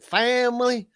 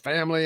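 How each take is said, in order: First: The word is said in a Southern drawl. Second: The word is said in a plain accent. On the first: "and then family" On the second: "how he says family"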